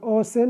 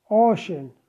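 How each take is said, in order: First: The middle consonant is an s sound. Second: The middle consonant is an sh sound. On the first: The speaker calls it wrong. "ما نقول أوسن" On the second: The speaker calls it right. "ocean لفظ ش"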